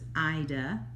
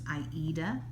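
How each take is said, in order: First: It is said the British way. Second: It is said like the opera's title. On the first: Many people in the UK say it this way. "especially in the U K, they pronounce it" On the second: It follows the opera the fabric is named after. "the correct pronunciation is the way that Jean pronounces it"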